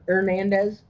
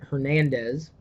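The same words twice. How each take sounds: First: The name begins with no H sound. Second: The name begins with an audible H sound. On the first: The speaker calls it right. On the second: The speaker calls it wrong.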